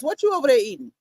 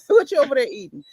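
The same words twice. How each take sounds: First: Said in the usual way. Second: Laughing, a bit faster. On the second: Real, not acted. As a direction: ask it again through a laugh.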